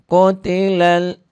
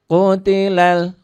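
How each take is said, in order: No difference in how they are said.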